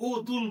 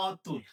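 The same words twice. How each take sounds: First: অতুল begun with a closed o, o-tul; wrong closed o. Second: অতুল said as ɔ-tul, open aw first; open vowel demo. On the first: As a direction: say অতুল with o as the first vowel. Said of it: "অতুল পাবো না". (অতুল-এর অ ও-এর মতো) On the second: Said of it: "এটা উচ্চারণ হবে". (অতুল-এর শুরুতে খোলা অ) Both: Shown as a demonstration.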